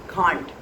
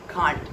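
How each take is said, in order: The two takes are said the same way.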